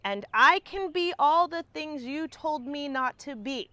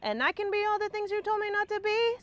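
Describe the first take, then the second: First: It is said very slowly. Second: It is said faster.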